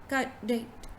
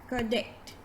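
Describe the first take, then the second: Both takes have the same delivery.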